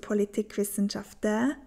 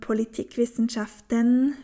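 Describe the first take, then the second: First: The word ends with an open 'ä' sound. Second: The word ends with an 'en' sound. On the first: This is the Swiss German form. "Auch bei den Nomen wird die Endung en immer zu ä" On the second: This is the Standard German form. "die Endung en immer zu ä"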